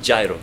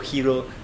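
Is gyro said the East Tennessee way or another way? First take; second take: East Tennessee; another way. First: The word is said the East Tennessee way. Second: The word is said another, non-Tennessee way. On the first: This is how the speaker's own group says it. "We pronounce it like East Tennessean accent" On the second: Other people say it this way. "But some say that"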